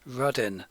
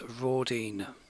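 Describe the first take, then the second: First: The name is said in the older local way. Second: The name is said in the standard way. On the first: This is how locals in the pubs say it. "I usually pronounce it as Rudin, as I am originally localish" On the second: This is the form used for a wider audience. "for this documentary I will refer to it as Rawdene"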